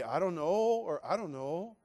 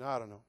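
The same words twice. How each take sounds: First: "I don't know" with drawn-out, swooping pitch; how she didn't say it. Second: Low, soft, unconcerned "I don't know"; casual noncommittal. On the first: Mimicking a reply she didn't give, with exaggerated tune. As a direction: lift and stretch "I don't know". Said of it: "She didn't say". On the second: Showing how girlfriend answered his proposal, offhand. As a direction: toss off "I don't know" quietly. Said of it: "She said, "I don't know". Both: Shown as a demonstration.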